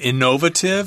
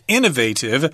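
First: It is said with a British pronunciation. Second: It is said with an American pronunciation. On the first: "You might hear British people say innovative" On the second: "the American pronunciation is innovative"

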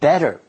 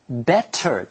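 First: The middle consonant is a soft D sound. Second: The middle consonant is a clear T sound. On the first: "变成 的 D 的音" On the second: "原本 T的音"

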